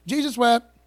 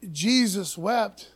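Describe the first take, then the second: First: Tossed off loudly like a schoolyard joke; imitating a classmate smirking at the preacher's kid; kids' mocking taunt. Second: Slow and weighty, each word given room; solemn slow reading. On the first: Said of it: "Everybody used to tell me that verse in middle school". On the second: Shown as a demonstration. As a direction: let the verse land slowly and reverently. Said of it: "powerful stick of dynamite verse".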